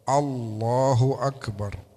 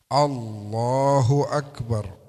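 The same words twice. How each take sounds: Both takes have the same delivery.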